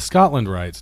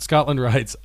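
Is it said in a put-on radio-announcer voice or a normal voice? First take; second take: radio voice; normal voice. First: It is said in a put-on NPR-announcer voice. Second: It is said in his own normal voice.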